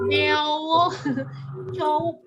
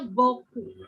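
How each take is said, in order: First: It is read as spelled: 'beo-cowok'. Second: It is said smoothly as 'bo-koo'. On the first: The speaker calls it wrong. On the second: The speaker calls it right. "tapi bacanya"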